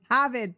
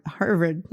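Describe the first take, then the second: First: "Harvard" in Boston accent as "Hahvahd", no r. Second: Said in the usual way. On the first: Shown as a demonstration. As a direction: drop the r in "Harvard" Boston style. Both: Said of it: "my Boston accent was like".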